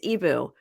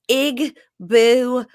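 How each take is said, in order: First: The word is said without a G sound. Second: The word is said with a G sound. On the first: The speaker calls it right. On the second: The speaker calls it wrong.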